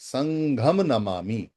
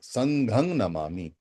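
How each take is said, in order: First: The first word ends in a clear 'am' sound. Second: The first word ends in a nasal 'ang' sound. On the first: This is the Sanskrit form. "हम इसको संस्कृत भाषा में बोल सकते हैं" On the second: This is the old Pali form. "अंग आता है पाली के अंदर पुराने समय में"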